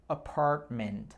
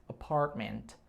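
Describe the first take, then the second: The two takes are said the same way.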